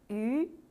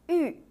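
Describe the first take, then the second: First: The pitch rises from middle to high. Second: The pitch falls sharply from high to low.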